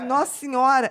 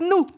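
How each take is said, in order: First: Both words are said in full. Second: The phrase is shortened to one short syllable.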